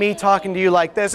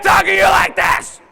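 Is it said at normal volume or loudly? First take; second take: normal; loudly. First: It is said at normal speaking volume. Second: It is said much more loudly.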